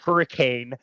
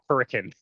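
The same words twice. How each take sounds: First: The word is said the standard, as-spelled way. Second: The word is said the local town way. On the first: "it's spelled hurricane" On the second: "but you say it hurricane"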